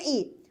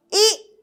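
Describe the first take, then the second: First: Soft short "ई" with little force. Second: "ई" pushed hard and high, mouth wide; long strong ii. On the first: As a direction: barely push "ई". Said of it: "कम जोर लगाएंगे". ("ई" कम जोर से, धीमे) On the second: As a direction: force out "ई" strongly. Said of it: "ज़्यादा जोर लगा के बोलेंगे ई". ("ई" ज़्यादा जोर से, मुंह खोलकर) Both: Shown as a demonstration.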